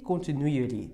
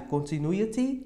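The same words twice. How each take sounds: First: CONTINUITY ending in "ri", tune falling; American flapped T. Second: CONTINUITY ending in "ti", tune rising; T pronunciation. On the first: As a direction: tap the final T of CONTINUITY. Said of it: "americana ri". ("continuity" com R brando no final) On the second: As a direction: clear final T in CONTINUITY. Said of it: "vai ter a terminação ti". ("continuity" com T claro no final) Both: Shown as a demonstration.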